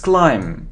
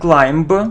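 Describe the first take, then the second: First: No B sound is pronounced at the end. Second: A B sound is pronounced at the end. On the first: The speaker calls it right. "So we don't pronounce be" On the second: The speaker calls it wrong. "It isn't climb"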